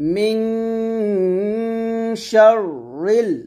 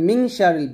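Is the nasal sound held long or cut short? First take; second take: held; short. First: The nasal sound is held and resonant. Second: The nasal sound is cut short. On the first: The speaker calls it right. "গুণনা অবশ্যই করতে হবে" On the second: The speaker calls it wrong. "গুণনাটা না করে চলে যায়"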